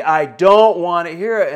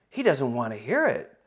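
First: Louder, slower, each word shut down hard; angry raised refusal. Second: Said in the usual way. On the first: Retold or imitated. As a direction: slam the door on the conversation with a loud, slow no. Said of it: "his voice is raised". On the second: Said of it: "And I'm like".

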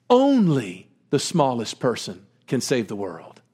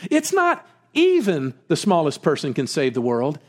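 First: "only" stressed with a falling tune. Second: "even" stressed with a rise. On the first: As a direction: hit "only" as the corrected word. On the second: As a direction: lean on "even" as the wrong version. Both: Shown as a demonstration. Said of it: "No, that's completely wrong".

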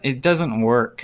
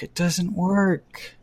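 First: Said in the usual way. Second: Slow, quiet repeat of "It doesn't work."; slow, deflated emphasis. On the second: Real, not acted. Host restating his verdict on Rocky, slow soft emphasis. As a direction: drag out "It doesn't work." softly, each word spaced.

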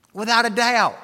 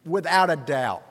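First: "Without a doubt" फिर से ज़ोर से, ऊँची आवाज़ में; second time, punch it up high; louder, higher repeat. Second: Said in the usual way. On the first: Real, not acted.

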